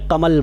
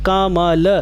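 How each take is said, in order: First: The final vowel is dropped in quick speech. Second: Every syllable keeps its full vowel sound. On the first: The speaker calls it wrong. "जल्दी में कमल बोल देते हैं" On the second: The speaker calls it right. "सही उच्चारण ये होना चाहिए"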